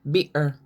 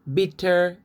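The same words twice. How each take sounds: First: "bitter" with no T, "bi'er"; glottal stop. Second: Said in the usual way. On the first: Shown as a demonstration. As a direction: catch the throat in place of TT in "bitter". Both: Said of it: "they don't sound T".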